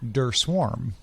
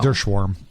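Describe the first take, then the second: First: The second word starts with a plain s sound. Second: The second word starts with an sh sound. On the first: The speaker calls it wrong. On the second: The speaker calls it right. "but it's pretty close"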